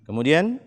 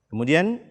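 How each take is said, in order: No difference in how they are said.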